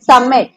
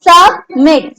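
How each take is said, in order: First: Said in the usual way. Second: सबमिट broken into सब and a stressed मिट; stress on last syllable. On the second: Shown as a demonstration. Teacher repeats the examples for class, stressed last syllable in सबमिट. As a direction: split सबमिट with a gap, leaning on मिट. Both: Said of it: "stress लग रहा है".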